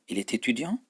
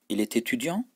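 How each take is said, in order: The two takes are said the same way.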